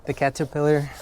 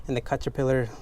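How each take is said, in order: First: Caterpillar with a clear cat vowel, carefully; corrected caterpillar. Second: Caterpillar said as kuh-ter-pillar with an uh vowel; stumbling over caterpillar, first vowel like cut; mispronounced caterpillar. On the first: Correcting himself for viewers, caterpillar like cat. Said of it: "that's how you pronounce it". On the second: Second-language speaker trips on caterpillar, first vowel like cut. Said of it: "I can't even pronounce it". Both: Shown as a demonstration.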